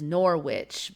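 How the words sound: It is said with an American accent.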